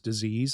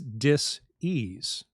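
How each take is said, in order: First: The word is said smoothly as one unit. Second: The word is split into two separate parts. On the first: It names a pathological process. "the way we all do" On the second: It names a state of not being at ease. "you can hyphenate it"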